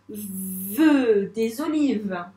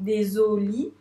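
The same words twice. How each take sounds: First: Said in the usual way. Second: Des olives split slowly as des, o, li, ve; syllable by syllable. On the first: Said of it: "on assemblera toutes les syllabes". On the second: Shown as a demonstration. Teacher assembling syllables for a pupil, slow segmented des olives. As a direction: sound out DES OLIVES in pieces. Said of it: "syllabe par syllabe".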